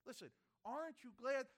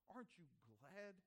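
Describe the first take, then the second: First: "Listen, aren't you glad?" thrown out louder and higher; loud challenge. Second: A quiet aside before the shout; hushed question. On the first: Preacher calling out to the congregation, loud challenge. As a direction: wake the room up with it. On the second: Preacher murmuring to the flock, hushed question. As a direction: softly ask "Aren't you glad?" almost to yourself. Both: Real, not acted.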